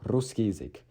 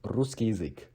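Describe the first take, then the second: Both takes have the same delivery.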